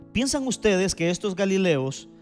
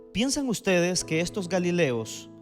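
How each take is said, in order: The two takes are said the same way.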